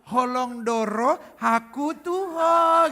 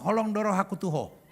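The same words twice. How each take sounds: First: It is said in a sweet, sugary tone. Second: It is said plainly and flatly.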